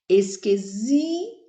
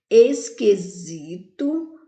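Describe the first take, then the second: First: "Esquisito" with SI stretched and rising, TO after a break; stress on SI. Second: Said in the usual way. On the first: Shown as a demonstration. Teacher marking the strong syllable, "Esquisito" with a long stressed SI. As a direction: lengthen the SI in "Esquisito", then detach the TO. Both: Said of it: "o zi é a sílaba mais forte".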